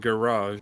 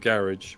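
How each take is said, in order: First: The word is said in a French-sounding way. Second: The word is said in an anglicized way. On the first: This is how the listeners say it. "a lot of you guys pronounce it garage" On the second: This is how the speaker's own group says it. "we still go with garage"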